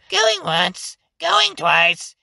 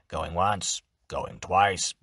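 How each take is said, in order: First: It is said in a high voice. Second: It is said in a low voice.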